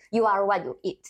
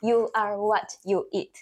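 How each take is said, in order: First: The phrase is said fast and slightly blurred. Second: The phrase is said slowly and clearly.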